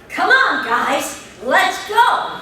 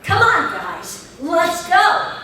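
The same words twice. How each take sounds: First: The line is said with strong force. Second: The line is said with less force. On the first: The speaker calls it right. "no, just like this" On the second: The speaker calls it wrong. "So I'd go"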